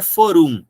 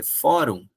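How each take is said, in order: First: Forum stressed on the end, fo-RUM; wrong stress. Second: Fórum with an open ó, stressed first; fórum as a paroxytone, open o; correct stress. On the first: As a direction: say forum wrongly as an oxytone, a bit louder. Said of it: "não é forum". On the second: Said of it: "não é forum, é fórum". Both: Shown as a demonstration.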